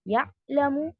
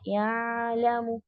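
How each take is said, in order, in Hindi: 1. 'ayn गले में पूरी तरह रुकी हुई है। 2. 'ayn लंबी आवाज़ के साथ खुलकर बहती है। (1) "ये जो है आपने शिद्दा की सिफत दे दी" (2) "या इतना भी नहीं, रिखावा नहीं करना है"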